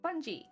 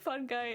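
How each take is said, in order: First: The second syllable starts with a soft j sound. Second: The second syllable starts with a hard g. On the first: "Like fun and then G" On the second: "One fun guy"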